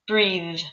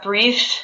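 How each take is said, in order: First: The th sound is voiced, with vibration. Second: The th sound is unvoiced, with no vibration. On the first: The speaker calls it right. "that one is the breathe voiced sound" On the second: The speaker calls it wrong. "Not breathe"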